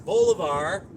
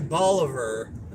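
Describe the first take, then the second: First: The name is said like the original Spanish name. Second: The name is said in a changed local way. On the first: This is how the namesake's name is said. The speaker calls it right. "his last name was Bolivar" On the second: This is how the town's residents say it. The speaker calls it wrong. "and then they say Bolivar"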